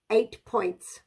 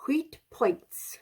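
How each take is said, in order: First: Said in the usual way. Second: "Huit" whispered in French, softer; soft whispered French "Huit points". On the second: Shown as a demonstration.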